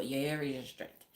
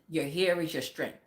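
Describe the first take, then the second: First: Put-on lower, softer Caribbean-accented saying. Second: Said in the usual way. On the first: Quoting Caribbean family belief about hair, light Caribbean accent. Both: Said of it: "That's Caribbean people".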